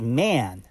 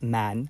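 First: The vowel glides like e into a. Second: The vowel is a plain, steady a sound. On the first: The speaker calls it right. "So man is man" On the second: The speaker calls it wrong. "not man"

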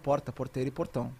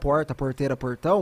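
First: It is said with a neutralized accent. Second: It is said with his regional accent.

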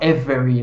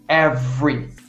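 First: The middle vowel is pronounced, giving three syllables. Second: The middle vowel drops, giving two syllables. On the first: The speaker calls it wrong. "a gente não fala every" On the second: The speaker calls it right. "Esse E, ele some na hora da prática"

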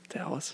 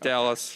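First: The word is said in a whisper. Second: The word is said in a normal voice. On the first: The speaker is reluctant to make this pick. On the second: The speaker openly admits the pick.

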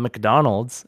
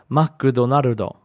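First: It is said with English sounds and syllables. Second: It is said with Japanese sounds and syllables. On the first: "McDonald's is an American company that is pronounced that way" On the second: "because of the way their language works, they have to say McDonald's"

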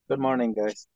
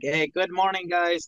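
First: It is said flatly, with low energy. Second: It is said with lively, high energy.

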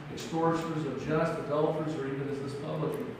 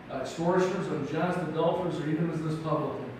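The two takes are said the same way.

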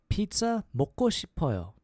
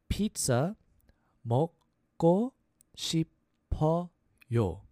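First: It is said at a faster pace. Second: It is said at a slower pace.

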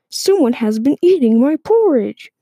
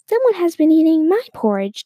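First: It is said in a big voice. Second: It is said in a medium voice.

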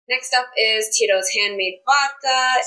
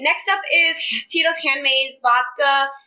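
First: It is said in a flat tone. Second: It is said with more enthusiasm.

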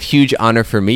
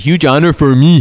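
First: It is said plainly, without a put-on accent. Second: It is said with a mock Brazilian Portuguese accent. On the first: "instead of" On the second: "you say"

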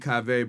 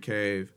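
First: The final e is sounded as a second syllable. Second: The name is one syllable with silent final e. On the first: This is the name's true pronunciation. The speaker calls it right. "It's really Cave" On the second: This is how Americans say the name. The speaker calls it wrong. "y'all Americans say Cave"

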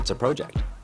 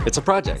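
First: It is said in a Canadian accent. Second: It is said in the speaker's usual accent.

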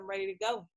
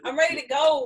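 First: It is said with ordinary, lower energy. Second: It is said with much more excited energy.

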